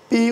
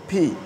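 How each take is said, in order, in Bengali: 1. p টি বাতাসের কোনো ঝলক ছাড়া বলা হয়। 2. p টি জোরালো বাতাসের ঝলক দিয়ে বলা হয়। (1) "আমরা পি উচ্চারণ করি" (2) "সঠিক প্রনাউন্সিয়েশন হবে ফি"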